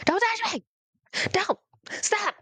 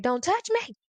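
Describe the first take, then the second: First: Put-on much higher, near-shrieking child's plea; the panic peaks, voice way up; panicked shriek. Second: Put-on high, frightened child's plea; scared refusal. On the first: A terrified child pleading with the church people, shrieking high. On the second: A scared child to the people reaching for her, high and frightened. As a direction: back away as you say it, pitch up.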